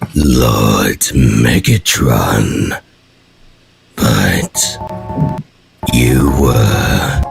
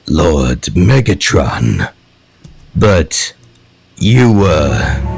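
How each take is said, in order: First: It is said at a slower pace. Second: It is said at a faster pace.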